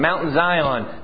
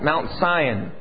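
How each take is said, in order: First: Zion begins with a z sound. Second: Zion begins with an s sound, like sigh. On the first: It sounds enthusiastic. The speaker calls it right. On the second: It sounds like people sighing. The speaker calls it wrong.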